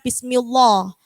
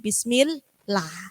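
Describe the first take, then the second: First: The 'l' in 'llah' sounds heavy and dark. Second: The 'l' in 'llah' sounds light and thin. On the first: The speaker calls it wrong. "bukan bismillah" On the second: The speaker calls it right. "tapi bismillah. Karena sebelum lafaz Allah itu harokatnya kasroh"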